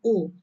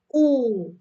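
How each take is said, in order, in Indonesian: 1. Vokalnya diucapkan pendek. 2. Vokalnya diucapkan panjang. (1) "bukan U" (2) "tapi U. Jadi di pajanya ini adalah long vowel sound, panjang ya"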